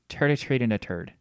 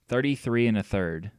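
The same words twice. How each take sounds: First: The words begin with a plain t sound. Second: The words begin with a th sound.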